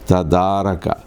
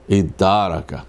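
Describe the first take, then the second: First: It starts with a separate t sound. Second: It starts with a vowel and doubled d.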